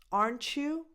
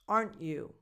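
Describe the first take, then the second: First: The T and Y blend into a ch sound. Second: The T is skipped, with no ch sound. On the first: "you get a ch sound in the middle" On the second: "Where you kind of skip the T"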